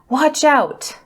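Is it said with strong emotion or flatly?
emotional. It is said with strong emotion.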